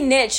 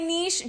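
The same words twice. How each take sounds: First: The word ends in a 'ch' sound. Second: The word ends in a soft 'sh' sound. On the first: "But then people say niche" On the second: "I say niche just because I don't hear the T"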